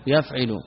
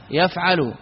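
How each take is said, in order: First: يفعل said as yefʿelu, with an i-like vowel on the ʿayn; يفعل with kasra: yef-ʿe-lu; kasra on the middle letter. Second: يفعل said as yafʿalu, with an open a on the ʿayn; يفعل with fatha: yaf-ʿa-lu; fatha on the middle letter. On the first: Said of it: "يفعل، هذا القياس". (يفعل بكسر العين) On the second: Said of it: "فعل القياس فعل". (يفعل بفتح العين) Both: Shown as a demonstration.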